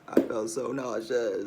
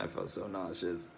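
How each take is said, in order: First: "nauseous" drawn out slow and louder; emphatic repeat. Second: Quiet. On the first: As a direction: lean on "nauseous", stretching it slowly. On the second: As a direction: say it under your breath, worn out. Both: Real, not acted.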